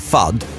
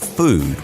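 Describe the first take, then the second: First: The vowel is short, as in flood. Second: The vowel is long, as in mood.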